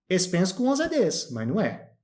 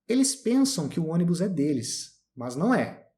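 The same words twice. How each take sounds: First: Sounds are dropped and words run together. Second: Each word is pronounced fully and separately. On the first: This is how people actually speak in everyday talk. The speaker calls it right. "A gente fala mais ou menos isso aqui" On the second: This is how one would speak in a very formal situation. The speaker calls it wrong. "Alguém fala dessa forma aqui? Não"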